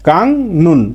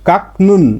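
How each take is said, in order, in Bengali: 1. প্রথম সিলেবলটি ng শব্দে শেষ হয়। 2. প্রথম সিলেবলটি k শব্দে শেষ হয়। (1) "কাকনুন না হয়ে উচ্চারণটা হবে কাংনুন" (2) "সাধারণ নিয়মে এর উচ্চারণটা কি হতো কাকনুন"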